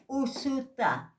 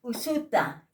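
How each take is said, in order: First: "usuta" slowed right down and pitched higher; slow higher repeat. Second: "Usuta" at normal pace, falling; ejective p word. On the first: Teacher repeating for students, slow and higher. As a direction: stretch "usuta" high and slow. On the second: Teacher modelling the word for students, crisp. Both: Shown as a demonstration. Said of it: "con apóstrofo".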